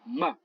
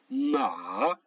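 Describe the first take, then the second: First: The pitch falls sharply through the syllable. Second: The pitch falls and then rises again. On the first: It means to scold. "Le quatrième ton qui descend" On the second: It means horse. "Le troisième ton qui descend et qui monte"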